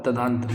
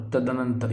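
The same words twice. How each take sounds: First: तदंतर without the "na" syllable; correct form. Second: तदनंतर with a short "na" syllable; wrong form. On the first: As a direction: say तदंतर as "ta-daan-tar". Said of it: "ये सही होगा". (तदंतर को "तदांतर" जैसा बोलें) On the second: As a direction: say तदनंतर as "tad-a-nantar". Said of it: "ये गलत होगा". (तदनंतर में "नं" अलग बोलें) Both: Shown as a demonstration.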